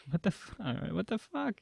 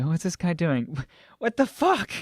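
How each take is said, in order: First: Soft, broken-off WHAT THE FUCK rising high; halting intonation. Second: Loud yell. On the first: Stunned listener echoing the hoodlum, halting and hushed on WHAT THE FUCK. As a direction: falter on WHAT THE FUCK, hushed, pitched up at the end. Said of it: "what's with that halting intonation". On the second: Hoodlum reacting to what he just heard, yelling loudly. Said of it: "the hoodlum yelled loudly". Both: A narrator's reading.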